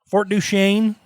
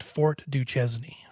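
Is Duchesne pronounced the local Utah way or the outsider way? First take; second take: local; outsider. First: Duchesne is pronounced the way Utah locals say it. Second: Duchesne is pronounced the way outsiders say it. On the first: The speaker is from the area. The speaker calls it right. "that's how we pronounce it here in Utah" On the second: The speaker is not from the area. The speaker calls it wrong. "you can tell someone who's not been around Utah at all"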